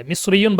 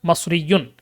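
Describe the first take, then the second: First: মিসরিয়ুন beginning with "mis"; standard form. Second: মাসরিয়ুন beginning with "mas"; regional form. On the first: Teacher repeating the variants, "mis" pronunciation. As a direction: say মিসরিয়ুন with i first. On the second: Teacher repeating the variants, regional "mas" pronunciation. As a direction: say মাসরিয়ুন with a first. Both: Shown as a demonstration. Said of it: "ওটা এভাবে বলে".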